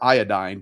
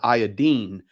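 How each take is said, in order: First: It is said with an American pronunciation. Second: It is said with a British pronunciation.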